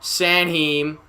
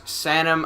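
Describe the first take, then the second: First: "Sanheim" said as san-HEEM, long ee; unsure pronunciation. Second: "Sanheim" reduced to SAN-um, no h; unsure pronunciation. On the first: Announcer unsure of a player's name, "Sanheim" as san-heem. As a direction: try "Sanheim" with a drawn-out "heem" ending. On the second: Announcer retrying a player's name, "Sanheim" as SAN-um. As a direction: say "Sanheim" short, ending in a weak "um". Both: Real, not acted. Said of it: "I don't know how to say that name".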